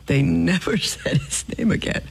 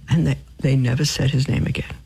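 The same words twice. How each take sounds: First: Laughing. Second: Said in the usual way. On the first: Real, not acted. Repeats punchline laughing.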